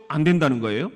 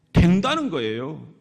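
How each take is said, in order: First: 안 된다는 거예요 asked with a rising question tune; questioning rise. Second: 된다는 거예요 said as a settled falling statement; firm answer. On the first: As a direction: ask it back to the crowd, rising at 된다는. (된다는에서 올라가는 질문 억양) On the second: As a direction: answer your own question, firmly closing. (된다는 거예요를 단정적으로 내려 말하기) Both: Shown as a demonstration. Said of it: "그러면 여러분".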